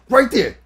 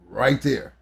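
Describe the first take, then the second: First: It is said loudly, as a yell. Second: It is said calmly and softly. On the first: The dog is being pushed hard. The speaker calls it wrong. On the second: The dog is being praised and encouraged. The speaker calls it right.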